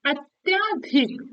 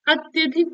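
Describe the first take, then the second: First: अत्याधिक drawn out slowly, long "yaa" after the t; slow careful अत्याधिक as the wrong spelling; wrong form said slowly. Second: अत्यधिक with a short "ya", said briskly; quick correct अत्यधिक, no long vowel; correct form. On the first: Teacher slowly sounds out the wrong word for students. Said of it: "अत्याधिक गलत है". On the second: Teacher gives students the correct short form. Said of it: "अत्यधिक होता है". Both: Shown as a demonstration.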